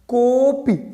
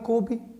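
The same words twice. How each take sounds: First: The o vowel is drawn out longer. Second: The o vowel is short and normal. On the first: "तो जब जब कोपी बोला तो हमने ओ को खींचा" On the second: "सामान्य तौर पर हमने कहा कि कोपी"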